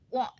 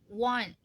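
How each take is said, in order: First: The word is said lazily and reluctantly. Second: The word is said carefully and fully. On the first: "lebih ke want, kayak ogah, ogah-ogahan gitu loh ngomongnya" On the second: "nggak ngucapin yang kayak want"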